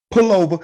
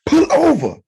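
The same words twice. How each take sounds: First: Raised-pitch bluffing command; mock tough guy. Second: Very high, louder mock command. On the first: Cut-off driver ordering the other man, mock tough. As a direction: order him over, acting tough. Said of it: "trying to be a tough guy". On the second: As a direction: bark the challenge in a squeaky-high put-on voice.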